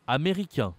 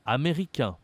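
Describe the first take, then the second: No difference in how they are said.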